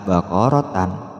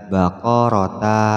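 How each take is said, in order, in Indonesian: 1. Kata ini berakhir dengan bunyi tan. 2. Kata ini berakhir dengan bunyi ta pendek. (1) "apalagi dibaca baqaratan, ya, tambah salah" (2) "Tidak boleh dibaca baqarata"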